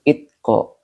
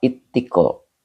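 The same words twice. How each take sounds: First: Itko said with a single short t, no doubling; misread as written. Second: Ittiko with the t held long, a tashdid; Ittiko, its t clearly doubled. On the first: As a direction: read Itko just as the comment spells it. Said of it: "pakai tasdid". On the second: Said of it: "Ini bacanya Ittiko, pakai tasdid". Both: Shown as a demonstration.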